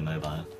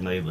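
First: The word is said the British way. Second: The word is said the American way. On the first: The speaker calls it right. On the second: The speaker calls it wrong.

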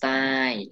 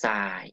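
First: The syllable has a falling tone. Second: The syllable has a low tone. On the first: "ไม่โท" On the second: "ไม่เอก"

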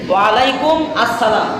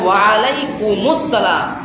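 First: 'Alaikum' and 'as-salam' are said as separate words. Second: 'Alaikum' runs into 'salam' through an added 'us'. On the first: The speaker calls it wrong. "না এভাবে হবে না।" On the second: The speaker calls it right. "হবে ওয়া আলাইকুমুস সালাম।"

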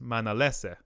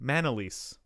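First: The name is said with one extra syllable. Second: The name is said with one syllable fewer. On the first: This is how the family pronounces it in the Philippines. "especially my dad or anyone in the Philippines with my last name, which is not many people, it's pronounced" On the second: This is how people pronounce it locally after the move. "they just pronounced her name Manalese. Which is one less syllable"

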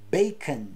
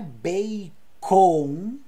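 First: The second vowel is reduced to a schwa. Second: The second vowel is a full vowel. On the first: The speaker calls it right. "é bacon" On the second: The speaker calls it wrong. "Então não é bacon"

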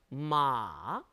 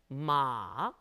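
First: The pitch comes down in a long stretch. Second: The same.

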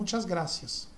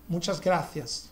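First: It is said with a Latin American accent. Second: It is said with a Spain Spanish accent. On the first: "aqui na América se pronuncia como" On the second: "lá na Espanha o C é pronunciado diferente... O C eles pronunciam como"

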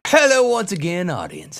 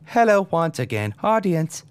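First: It is said in a natural speaking voice. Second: It is said in a flat robotic voice.

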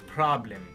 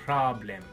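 No difference in how they are said.

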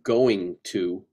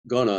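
First: Each word is fully and separately pronounced. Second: The words are run together and reduced. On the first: "instead of" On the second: "us doing lazy speak"

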